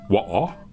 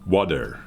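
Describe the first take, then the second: First: The word is said in a British accent. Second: The word is said in an American accent. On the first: "in British is water" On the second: "in American is water"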